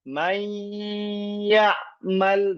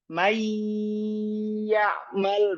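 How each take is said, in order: First: The joined sound carries a held nasal hum. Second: The joined sound has no nasal hum. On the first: The speaker calls it right. "idgham nakis dengan gunnah" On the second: The speaker calls it wrong. "idgham nakis bila gunnah tanpa guna"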